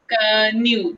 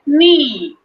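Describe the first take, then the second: First: The K at the start is sounded. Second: The K at the start is silent. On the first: The speaker calls it wrong. "if you will read it with K sound" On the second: The speaker calls it right. "we say it knee"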